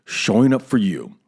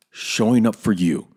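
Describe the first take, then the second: No difference in how they are said.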